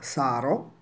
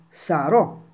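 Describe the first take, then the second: First: The stress is on the first syllable. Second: The stress is on the last syllable. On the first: The speaker calls it wrong. "non possiamo pronunciare questa parola sarò" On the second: The speaker calls it right. "sopra la lettera O c'è l'accento"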